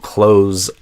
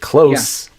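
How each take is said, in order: First: The word ends with a buzzing Z sound. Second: The word ends with a hissing S sound. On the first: It is the verb meaning to shut. "the verb, like to close a door, would be a Z sound" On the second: It is the adjective meaning near. "not as the verb, that's a S sound"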